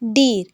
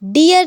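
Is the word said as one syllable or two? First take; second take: one; two. First: The word is said as one short syllable. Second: The word is stretched into two syllables. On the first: The speaker calls it right. "नहीं डीर" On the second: The speaker calls it wrong. "डियर नहीं"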